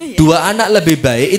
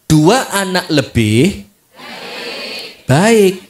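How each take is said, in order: First: It is read flat as one unbroken phrase. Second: It has a break between 'lebih' and 'baik'. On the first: Two children are better. "kalau bacanya datar" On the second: It is only good once there are more than two children. "Kalau bacanya begini coba"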